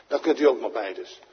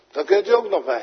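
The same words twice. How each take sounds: First: Said in the usual way. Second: Louder and higher, stress on u; fervent louder restatement; emphatic repeat. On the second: Shown as a demonstration. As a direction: proclaim "u" as a bold promise. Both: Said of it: "repeats it emphatically".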